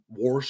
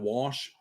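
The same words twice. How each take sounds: First: It is said with a rural country accent. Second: It is said with a plain standard accent. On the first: This is how the speaker's mother says it. "she says words like wash" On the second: This is the usual way to say it. "instead of"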